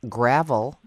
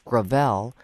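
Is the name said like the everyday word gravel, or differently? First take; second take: like gravel; differently. First: It sounds like the everyday word gravel. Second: It sounds unlike the everyday word gravel. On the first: This is how the spelling suggests reading it. The speaker calls it wrong. "whose name looks like gravel" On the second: This is how the name is actually pronounced. The speaker calls it right. "but it's Gravel"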